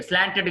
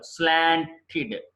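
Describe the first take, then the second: First: స్లాంటెడ్ ending in "ted"; mistaken pronunciation. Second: స్లాంటెడ్ ending in "tid", slowly; slow split, slan-tid, for స్లాంటెడ్; correct pronunciation. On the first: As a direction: clear e in the end of స్లాంటెడ్. (స్లాంటెడ్ చివర "టెడ్") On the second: (స్లాంటెడ్ చివర "టిడ్" నెమ్మదిగా) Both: Shown as a demonstration. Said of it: "స్లాంటెడ్ కాదు".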